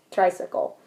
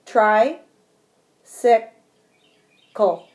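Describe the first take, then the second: First: Said in the usual way. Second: Try, sick, col with long pauses between; syllables split with pauses. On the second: Shown as a demonstration. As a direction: set each syllable apart slowly. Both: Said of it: "just like this".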